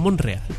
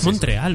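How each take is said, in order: First: No t sound comes before the r. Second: A clear t sound comes before the r. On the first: The speaker calls it wrong. "no Monreal. ... Dejar de decirlo mal" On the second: The speaker calls it right. "Y es Montreal"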